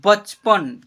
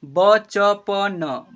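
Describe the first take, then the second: First: Said in the usual way. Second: "बचपन" slowly as ब, च, प, न, each vowel held; letter by letter. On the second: Shown as a demonstration. Teacher sounding out "बचपन" for learners, letter by letter. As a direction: spell out "बचपन" in separate syllables. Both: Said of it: "क्या पढ़ेंगे?".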